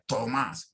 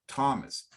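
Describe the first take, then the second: First: The name is said with Spanish-style sounds. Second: The name is said with English sounds. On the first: The speaker calls it wrong. "We don't say Tomas" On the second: The speaker calls it right. "try to pronounce the names correctly in the language they are"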